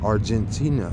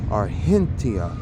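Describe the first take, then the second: First: It is pronounced the usual English way. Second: It is pronounced the way locals there say it. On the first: The speaker calls it wrong. "they don't say Argentina" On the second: The speaker calls it right. "they say Argentina"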